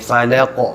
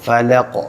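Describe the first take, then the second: No difference in how they are said.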